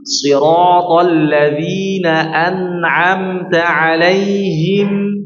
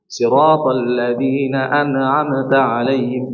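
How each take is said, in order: First: "an'amta" chanted slowly, nun given a little flow; correct recitation. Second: "an'amta" clipped, no flow on the nun; wrong recitation. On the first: Teacher chanting the correct way after the wrong one. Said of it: "diberikan sedikit aliran". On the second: Teacher demonstrating the wrong way to students. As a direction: chant "an'amta" with the nun cut short and bouncing. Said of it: "Salah seperti ini ya". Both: Shown as a demonstration.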